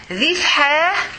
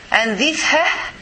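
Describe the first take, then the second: First: Ha pressed from the throat; ha said with a strong heavy ħ. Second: Slow airy ha with no throat; light ha. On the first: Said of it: "is the heavy H". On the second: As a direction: let ha out as light air. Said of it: "is the light H". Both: Shown as a demonstration.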